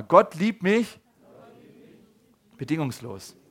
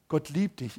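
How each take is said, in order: First: Loud prompt to repeat. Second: Said in the usual way. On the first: Shown as a demonstration. Preacher calls the congregation to repeat, loud. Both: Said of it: "Okay, sag mal".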